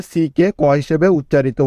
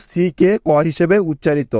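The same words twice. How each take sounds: The two takes are said the same way.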